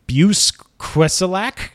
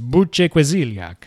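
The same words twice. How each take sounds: First: The name is said in a plain English accent. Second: The name is said in an Italian-style accent. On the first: "I guess is how you say it" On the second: "Maybe he's Italian and his name is"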